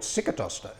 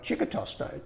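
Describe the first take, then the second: First: The name starts with an s sound. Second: The name starts with a ch sound. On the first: This is the anglicised form used by Australians. The speaker calls it wrong. "it used to get called Sicatosto" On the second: This is the original Italian form. The speaker calls it right. "The correct pronunciation is Chicatosto"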